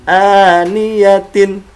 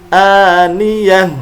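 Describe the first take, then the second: First: The word ends with a full -tin ending. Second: The word ends with a silent h sound. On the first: The reciter carries on without stopping. The speaker calls it wrong. "bukan dibaca dengan aniyatin" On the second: The reciter stops at the end of the verse. The speaker calls it right. "huruf ini berubah menjadi hak sukun"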